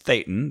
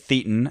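First: It sounds like Satan said with a lisp. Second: It does not rhyme with the word Satan. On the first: The speaker calls it right. "it's Thetan. That's how they say it. Like someone saying Satan, but with a lisp" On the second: The speaker calls it wrong. "I know a lot of people say Thetan"

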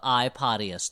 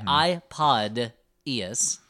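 First: The middle sounds like the word 'potty'. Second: The middle sounds clearly like the word 'pod'. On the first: The speaker calls it wrong. "because you pronounce it like P-O-T-T-Y" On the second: The speaker calls it right.

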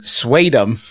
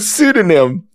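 First: The word begins with a 'swa' sound. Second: The word begins with a 'soo' sound. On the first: The speaker calls it wrong. "she mispronounces the word pseudonym, saying swadum" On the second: The speaker calls it right. "Instead of pseudonym"

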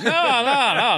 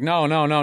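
First: The 'no's sound sarcastic and mocking. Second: The 'no's sound earnest and sincere. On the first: They mean the opposite and were involved. "But they were being sarcastic. Like" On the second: They truly deny being involved. "I thought they were going like"

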